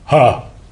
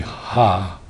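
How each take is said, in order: First: It is a full sound driven from the diaphragm. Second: It is a thin sound pushed from the throat. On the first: "using the diaphragm" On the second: "from my throat"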